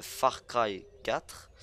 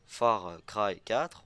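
First: "Far Cry quatre" said slowly with a French accent. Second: "Far Cry quatre" said very slowly with a heavy French accent; "Far Cry quatre" pronounced French-style, syllable by syllable. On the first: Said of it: "je vais le dire avec mon accent français". (accent français appuyé sur « Far Cry quatre ») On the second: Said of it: "voilà, je l'ai bien dit". (prononcé lentement « Far Cry quatre » avec l'accent français) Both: Shown as a demonstration.

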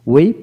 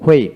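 First: হুইপ said "wip", plain w. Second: হুইপ said "hwip"; sounded H. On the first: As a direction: begin হুইপ without h. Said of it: "আমেরিকানে অ উচ্চারিত". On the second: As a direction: begin হুইপ with an audible h. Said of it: "ব্রিটিশে হ উচ্চারিত হয়". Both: Shown as a demonstration.

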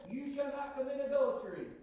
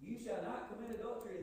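First: Loud proclaiming. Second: Said in the usual way. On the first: Acted. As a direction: boom out the commandment. Preacher quoting the commandment. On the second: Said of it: "Does God's word not plainly say that?".

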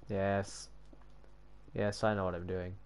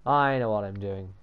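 First: Quiet, low self-assurance; low mutter. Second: Mock triumphant. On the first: Real, not acted. Reassuring self during the build, low and quiet. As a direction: say it softly to yourself. First take, under breath. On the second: Boasting to self about the build, mock triumphant. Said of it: "he said triumphantly".

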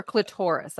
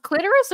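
First: "clitoris" stressed on TOR; second-syllable pronunciation. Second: "clitoris" stressed on CLIT; first-syllable pronunciation. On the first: Asking co-hosts which pronunciation, "clitoris" as cli-TOR-is. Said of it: "or clitoris". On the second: Asking co-hosts which pronunciation, "clitoris" as CLIT-er-is. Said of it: "Is it actually pronounced". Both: Shown as a demonstration.

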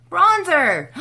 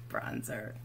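First: High, loud burst of delight; sudden delighted cry; excited exclaim. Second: Much softer, lower murmur of the word; soft pleased murmur; quiet aside. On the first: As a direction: shout it out like you found treasure. Excited discovery of bronzer. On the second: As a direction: drop it to a low satisfied murmur. Quiet repeat after excitement. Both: Real, not acted.

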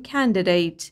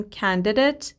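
First: "candidate" ending in "date" rhyming with eight; "candidate" said as KAN-de-dayt; second pronunciation. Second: "candidate" ending in a short "det"; "candidate" said as KAN-de-det; first pronunciation. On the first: Teacher giving the second correct pronunciation of the same word. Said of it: "دو تا تلفظم درسته". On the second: Teacher giving the first of two correct pronunciations of a word. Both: Shown as a demonstration.

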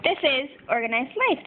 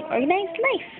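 First: Said in the usual way. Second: Higher, lightly voiced little puppy; cute puppy voice. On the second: Voicing the sticker puppy for viewers, higher cute voice. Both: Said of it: "This nice little puppy is saying".

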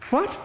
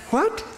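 First: Said in the usual way. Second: What? shooting up high in disbelief; a sharp rising What? of shock; disbelieving what. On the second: Shown as a demonstration. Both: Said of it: "Blessed is the person whose sin".

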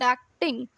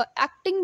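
First: एक्टिंग split in two, with the weight meant for टिंग; एक्टिंग as two syllables, the second one stressed. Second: Said in the usual way. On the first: Shown as a demonstration. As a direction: lean on टिंग in एक्टिंग, keeping एक light. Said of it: "टिंग पे आपको ज़्यादा stress". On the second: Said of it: "but एक्टिंग".

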